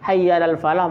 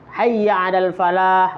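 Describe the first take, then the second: First: The final h is weak or dropped. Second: The final h is strong and throaty. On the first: Let us go to the desert. The speaker calls it wrong. "mari kita menuju ke padang pasir" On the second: Let us go toward success. The speaker calls it right. "mari kita menuju kesuksesan"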